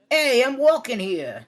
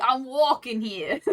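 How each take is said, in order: First: Big, loud, high Brooklyn accent; Karen. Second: Half-laughing, drawn-out Brooklyn accent; shitty Brooklyn accent. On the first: Friend demonstrates how Karen talks, loud Brooklyn accent. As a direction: belt it out slowly in brash Brooklyn. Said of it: "kind of like how she does it". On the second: Voice actor attempts Brooklyn for a friend, shitty Brooklyn accent. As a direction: try a bad Brooklyn accent, cracking up. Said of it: "I can do a really shitty". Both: Shown as a demonstration.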